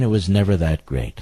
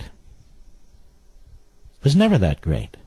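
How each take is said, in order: First: Said in the usual way. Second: Drawn out very slowly, each word dragged with scorn; slow mocking repeat. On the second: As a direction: mimic the quote slowly to ridicule it. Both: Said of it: "And he talks like this".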